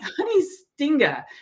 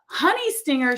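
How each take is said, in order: First: The final r sound is dropped. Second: The final r sound is pronounced clearly. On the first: The speaker calls it wrong. "for me, it is" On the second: The speaker calls it right. "should be"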